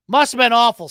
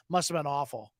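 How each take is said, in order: First: Louder mock sympathy; loud sarcasm. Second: Quiet sarcasm. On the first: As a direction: say it loudly with fake pity. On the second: Retold or imitated.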